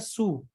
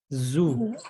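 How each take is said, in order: First: It begins with a plain voiceless s sound. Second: It begins with a voiced z, tongue between teeth. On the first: The speaker calls it wrong. "Kalau Ibu ini masih bacanya su. Jadi masih kurang tepat" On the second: The speaker calls it right. "huruf Z tebal, tapi gigit lidah"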